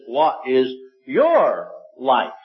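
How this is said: The stress falls on the word your. "With the emphasis on your"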